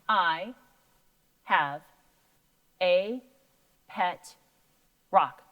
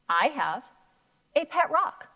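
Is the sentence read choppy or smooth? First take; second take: choppy; smooth. First: Each word is read separately with breaks between. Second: Words are grouped into smooth chunks like talking. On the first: The speaker calls it wrong. "it sounded a little choppy" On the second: The speaker calls it right. "That sounded so much better, almost like you were talking"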